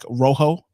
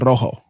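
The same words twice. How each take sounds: First: The R is not rolled, anglicized. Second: The R is rolled, Spanish style.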